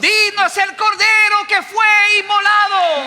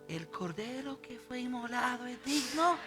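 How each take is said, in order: First: It is said in a loud voice. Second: It is said in a quiet voice.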